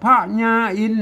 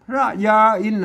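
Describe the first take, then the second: First: The name is said with a Lanna reading. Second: The name is said with a common Thai reading. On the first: The speaker calls it right. "ตัวแรกอ่านว่าพระญาอิน" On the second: The speaker calls it wrong. "คนทั่วไปมาอ่านนะครับว่าอ่านพระยาอินน่ะ... มันไม่ใช่นะครับ มันจะผิดสำเนียง"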